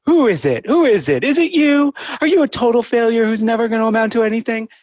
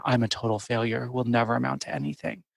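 First: Put-on high, loud baby talk as if to a puppy; talking to a dog. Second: Heavy self-judgment. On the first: Therapist demonstrating her negative thought as dog talk, high and loud. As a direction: coo at it like a pet dog, pitch way up. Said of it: "saying my thoughts as if I'm talking to a dog". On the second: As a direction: say it as a grim, quiet verdict on yourself. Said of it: "has such a different tone than". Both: Shown as a demonstration.

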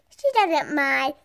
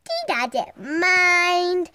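First: Said in the usual way. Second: "She doesn't mind" stretched very slowly; drawn out. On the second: Shown as a demonstration. Girl reassuring the camera about her dog, drawn out slowly. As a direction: drag every word of "She doesn't mind".

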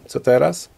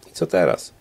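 First: Open, rising question to an empty room; repeated lost question. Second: Low, falling question into emptiness; lower, resigned question to an empty room; lost question. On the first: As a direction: lift the ending, searching for an answer. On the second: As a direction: drop the pitch, asking nobody. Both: A narrator's reading. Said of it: "rzuciła pytanie w pustką pokoju".

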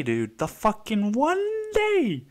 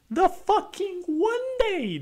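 First: Exasperated. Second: Squealing exasperation. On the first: Exasperated rant about flat tire. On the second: Exasperated rant, peaks higher. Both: Real, not acted.

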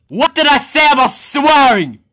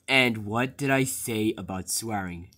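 First: Higher, louder furious question; angry yell. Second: Quiet menace. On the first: Boss to worker about the swearing rule, loud angry yell. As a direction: blow up at the worker. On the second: Boss to worker about the swearing rule, quiet and low. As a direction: hold back the anger, keep it quiet. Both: Acted.

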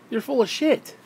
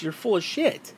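First: Pushed up in pitch for emphasis; emphatic second take; higher, emphatic repeat. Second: Said in the usual way. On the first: Real, not acted. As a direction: say it again, higher and harder.

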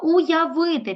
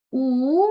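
First: Said in the usual way. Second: "Уявити" as у, я, ви, ти with long gaps; syllable by syllable. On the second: Shown as a demonstration. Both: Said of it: "Підставили знову ручку під підборіддя".

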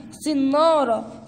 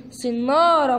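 First: صنارة stretched slowly, each syllable held; drawn out. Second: Said in the usual way. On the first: Shown as a demonstration. Teacher stretching صنارة so the kids hear each sound. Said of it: "ممتازين". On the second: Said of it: "بنصطاد السمكة بإيه؟".

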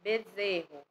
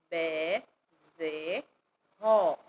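First: Said in the usual way. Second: "be, ze, ró" as separate syllables, pausing between them; split into syllables. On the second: Shown as a demonstration. Teacher breaking bezerro down for learners, "be, ze, ró" syllable by syllable. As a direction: sound out "be, ze, ró" one piece at a time. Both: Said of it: "Palavras com a letra B".

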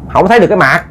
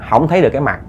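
First: Nonchalant reply. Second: Said in the usual way. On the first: Acted. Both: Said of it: "Trả lời tỉnh bơ".

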